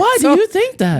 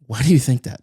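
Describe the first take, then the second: First: It is said in a Mickey Mouse voice. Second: It is said in a normal voice.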